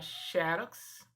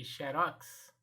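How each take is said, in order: First: "xerox" said XÉ-rox; stress on first syllable. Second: "xerox" said xe-RÓX; stress on last syllable. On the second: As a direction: open stressed ROX in "xerox". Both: Shown as a demonstration. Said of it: "dupla maneira de pronunciar".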